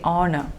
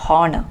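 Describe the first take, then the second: First: The word begins with a vowel, no H. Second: The word begins with a sounded H. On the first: The speaker calls it right. "we do not pronounce the first H. You just say" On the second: The speaker calls it wrong. "mispronouncing this word as"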